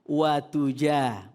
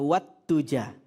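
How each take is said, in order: First: The t sound after wa is single. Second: The t sound after wa is doubled. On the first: The speaker calls it right. "Tidak ada tasydidnya" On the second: The speaker calls it wrong. "bukan wat tuja"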